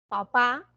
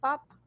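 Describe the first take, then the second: First: The stress is on the last syllable. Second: The stress is on the first syllable.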